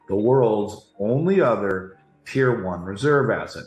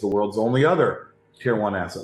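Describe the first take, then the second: First: It is said slowly and deliberately. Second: It is said at normal speed.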